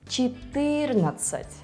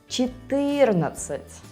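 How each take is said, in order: No difference in how they are said.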